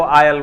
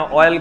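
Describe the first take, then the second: First: आयल with an "aa" onset; UP-style pronunciation. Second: ऑयल with a rounded "o" onset; standard pronunciation. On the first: Retold or imitated. Teacher imitating most UP speakers, आयल with "aa". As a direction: say आयल as "aa-yal". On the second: Shown as a demonstration. Teacher explaining UP speech, ऑयल with "o". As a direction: say ऑयल as "o-yal". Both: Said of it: "ऑयल को आयल बोलता है".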